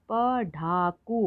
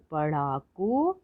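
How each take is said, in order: First: पढ़ाकू split as प, ढ़ा, कू; slow separate beats in पढ़ाकू; syllable by syllable. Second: Said in the usual way. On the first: Shown as a demonstration. Teacher sounding out पढ़ाकू for learners, syllable by syllable. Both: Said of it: "तो शब्द पढ़ते हैं".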